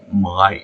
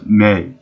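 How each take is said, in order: First: The vowel rhymes with 'my'. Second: The vowel rhymes with 'say'. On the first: "I always thought that her name was Mai, as in mine" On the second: "but they pronounce it as May"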